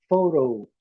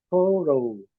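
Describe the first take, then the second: Both takes have the same delivery.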